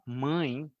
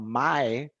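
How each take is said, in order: First: The vowel is nasalized. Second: The vowel is not nasalized. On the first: The speaker calls it right. "eles queriam falar mãe" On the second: The speaker calls it wrong. "eles falavam mae"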